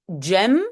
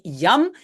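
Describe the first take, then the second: First: It starts with an English-style j sound. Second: It starts with a y sound. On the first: This is how it is often said in the Netherlands. "aux Pays-Bas, souvent, on le prononce euh, comme en anglais" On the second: This is how it is said in Belgium. "en Belgique, si on utilise yam, on dit yam"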